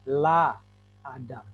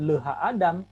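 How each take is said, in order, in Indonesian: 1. Suku kata 'ha' dihilangkan, menjadi 'la'. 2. Suku kata 'ha' diucapkan sebelum Adam. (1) "tapi la Adam" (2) "bukan leha Adam"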